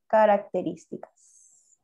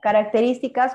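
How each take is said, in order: First: Características drawn out slowly, syllable by syllable; teacher spelling out Características at writing speed; slow dictation. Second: Características said briskly and a bit louder; Características, firm classroom call-out; called out as heading. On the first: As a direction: dictate Características slowly so they can write it. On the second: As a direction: announce Características as the next heading. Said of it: "colocas racional". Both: Shown as a demonstration.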